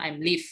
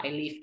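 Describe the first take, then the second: First: "I'm live" with M joined to the I; wrong form I'm live. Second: "I live" said quickly, no M; correct form I live. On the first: Teacher showing what not to say, "I'm live". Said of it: "nggak boleh bilang". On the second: Teacher giving the quick fix, correct "I live". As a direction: say "I live" without any M. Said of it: "bilangnya adalah". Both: Shown as a demonstration.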